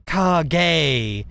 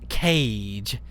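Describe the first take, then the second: First: Kage said as "kar-gay", two syllables, ah then gay; correct pronunciation. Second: Cage said like the English word cage, one syllable; plain English cage, rhymes with page; wrong pronunciation. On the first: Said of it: "Kage is supposed to be pronounced". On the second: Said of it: "not cage". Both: Shown as a demonstration.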